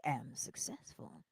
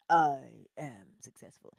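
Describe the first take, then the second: First: Slow whispered I am successful. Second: Low, slow declaration of I am successful; whole chest. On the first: Teaching how not to say I am successful, whispered. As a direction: breathe it out like a secret. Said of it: "you better say it like you mean it". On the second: Telling the listener to claim success, low and slow. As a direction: say it from the chest, full conviction. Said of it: "say that with your whole chest". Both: Shown as a demonstration.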